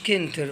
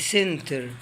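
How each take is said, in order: First: The word begins with a k sound. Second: The word begins with an s sound. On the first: The speaker calls it wrong. "ما قلتش كنتر" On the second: The speaker calls it right. "قلت سنتر"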